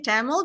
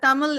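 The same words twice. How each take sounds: First: It is pronounced the English way. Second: It is pronounced the native Tamil way. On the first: "in uh, English, we can say Tamil" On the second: "Tamil is actually the more authentic way"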